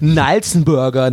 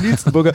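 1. Der erste Vokal klingt wie 'a'. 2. Der erste Vokal klingt wie 'i'. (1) "das hört sich so uncooler an" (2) "ich in meinem Kopf immer einfach Nilsenburger gesagt habe"

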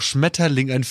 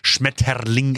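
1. Das Wort wird normal sanft ausgesprochen. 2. Das Wort wird übertrieben hart ausgesprochen. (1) "Aber dabei ist doch Schmetterling" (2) "dann wird es halt extra so Schmetterling ausgesprochen"

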